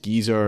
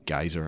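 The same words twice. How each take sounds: First: It is said the British way. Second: It is said the American way. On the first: "but in English it's geyser" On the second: "In in America it's it's geyser"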